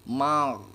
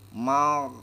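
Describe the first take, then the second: First: The consonant keeps sounding, with a continuing friction. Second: The consonant keeps sounding, with a continuing friction.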